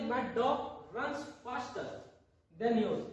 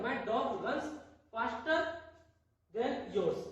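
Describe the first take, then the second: First: Very slow, word by word; slow demo sentence. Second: Said in the usual way. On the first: Shown as a demonstration. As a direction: read my dog runs faster than yours slowly for the class. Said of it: "इसी प्रकार देखिए". (धीरे-धीरे एक-एक शब्द बोलते हुए) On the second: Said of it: "तो क्या हो जाएगा?".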